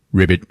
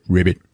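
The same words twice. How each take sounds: The two takes are said the same way.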